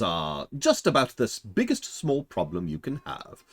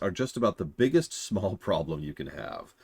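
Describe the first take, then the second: First: It is read with more inflection and clear enunciation. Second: It is read plainly with little pitch movement. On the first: "have a little bit more inflection in your tone" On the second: "now that you've had a chance to do a cold read, that's what I just did"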